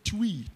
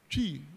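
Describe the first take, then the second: First: The word begins with a 'tw' sound instead. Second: The word begins with a clear 'tr' sound. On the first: The speaker calls it wrong. "they couldn't say tree. They said twee" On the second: The speaker calls it right. "I only think of Ghana tree"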